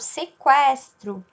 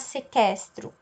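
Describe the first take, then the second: First: The u after the q is pronounced. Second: The u after the q is silent. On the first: The speaker calls it right. "eu falo sequestro... o é pronunciado" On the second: The speaker calls it wrong. "eu não vou falar sequestro"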